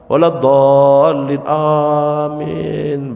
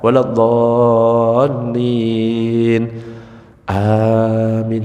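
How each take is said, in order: First: Amin follows at once with no pause. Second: There is a short pause before amin.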